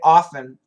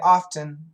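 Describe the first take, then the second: First: The word is said without a t sound. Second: The word is said with a t sound. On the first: This is the more common way to say it. "No T is much more common" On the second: Fewer people say it this way. "but some people do say often"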